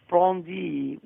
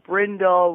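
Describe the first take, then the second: First: The name is said in a French way. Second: The name is said in an English-style way. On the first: The speaker calls it right. "The correct it's Brandy, which is in French" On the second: The speaker calls it wrong. "We have Brindle"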